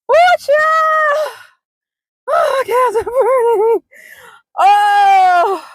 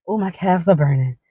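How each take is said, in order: First: High, loud drawn-out hollering; loud wail. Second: Said in the usual way. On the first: Real, not acted. Walker back at car with burning calves, loud wail. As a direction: wail over aching legs at full voice. Wailing about aches after walk.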